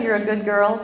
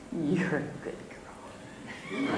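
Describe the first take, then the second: First: Said in the usual way. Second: Soft, voiceless whisper; whispered tenderly. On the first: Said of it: "She didn't say exactly". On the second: Retold or imitated. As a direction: whisper it like a kind old lady blessing a child. Kind old lady's blessing.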